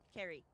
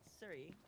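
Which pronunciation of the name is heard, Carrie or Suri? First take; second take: Carrie; Suri. First: The name is pronounced like Carrie. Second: The name is pronounced like Suri. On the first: This is the original Welsh pronunciation. The speaker calls it right. "my name the proper way that it's pronounced" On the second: This is the pronunciation fans insisted on. The speaker calls it wrong. "and not Suri"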